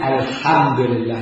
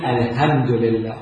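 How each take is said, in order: First: الحمد لله with a throaty ḥ in الحمد; الحمد لله بحاء حلقية صحيحة; correct Arabic ḥa. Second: الحمد لله with a plain h, like "alhamd"; الحمد لله بهاء بدل الحاء. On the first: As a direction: say الحمد لله with a proper pharyngeal ḥ. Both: Shown as a demonstration. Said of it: "فشنو ينطقه؟ ه".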